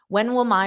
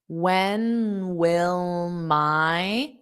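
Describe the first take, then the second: First: The phrase is said at a fast pace. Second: The phrase is said at a slow pace. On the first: "I'll say it fast"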